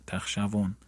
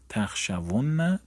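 First: تخشون said short with a single light nun at the end; light nun form. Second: تخشون said slowly with a doubled, lengthened nun at the end; heavy nun form. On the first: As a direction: clip تخشون quickly on a plain single nun. (تخشون کوتاه با نون خفیف و ساده) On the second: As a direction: stretch out تخشون and hold the final nun hard. (تخشون آهسته با نون مشدد و کشیده) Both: Shown as a demonstration. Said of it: "ثقیله خفیفه".

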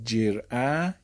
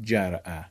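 First: جرعه said with e, jer'e, slowly; second pronunciation. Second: جرعه said with a, jar'e; third pronunciation. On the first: Teacher showing students the second reading, slow jer'e. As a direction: stretch جرعه out as jer'e, e after the j. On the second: Teacher showing students the third reading, جرعه with a. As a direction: say جرعه as jar'e, open a after the j. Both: Shown as a demonstration.

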